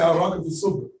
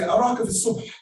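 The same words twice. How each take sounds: First: The last word ends without the breathy h. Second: The last word ends with an audible breathy h. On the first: The speaker calls it wrong. "I don't say araka fi subh. If I do that, I've left the letter off the word" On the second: The speaker calls it right. "So I say araka fi subh"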